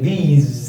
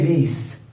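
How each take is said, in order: First: The word ends with a buzzing z sound. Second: The word ends with a hissing s sound. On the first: The speaker calls it right. "the sound of the S is Z" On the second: The speaker calls it wrong. "don't say these. Wrong"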